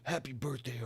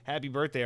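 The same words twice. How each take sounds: First: It is said in a gruff put-on character voice. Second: It is said in a plain, normal speaking voice. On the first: "that's more Duke Nukem than than it is Master Chief" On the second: "I'm actually not going to do Master Chief voice"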